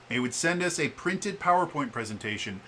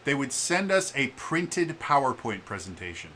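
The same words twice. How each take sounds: The two takes are said the same way.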